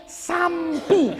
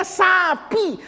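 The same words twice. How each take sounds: First: "sampi" with an m before the p; Betawi added M. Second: Said in the usual way. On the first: Shown as a demonstration. Preacher mimicking Betawi speakers, "sampi" with an added m. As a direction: slip a clear m into sapi: "sampi". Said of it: "masih dikasih M". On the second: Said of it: "Udah jelas tulisannya sapi".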